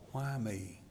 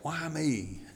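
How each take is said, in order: First: It sounds humble and thankful. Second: It sounds like a grumbling complaint.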